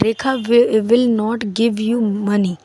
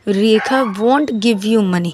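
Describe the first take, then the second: First: Will not is said fully as two words. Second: Will not is contracted into one syllable.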